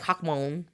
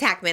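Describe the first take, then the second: First: The surname is said with foreign-accented vowels. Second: The surname is said with plain English vowels. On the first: This is how the name is really said. The speaker calls it right. "that's not how you say it. It's like Hawkmoon" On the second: This is how the name is told to people. The speaker calls it wrong. "I don't think it's Hackman"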